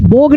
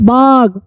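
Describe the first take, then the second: First: The vowel sounds like 'oh'. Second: The vowel sounds like 'ah'. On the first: The speaker calls it wrong. "बोग नहीं पढ़ेंगे" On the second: The speaker calls it right. "बाग पढ़ेंगे"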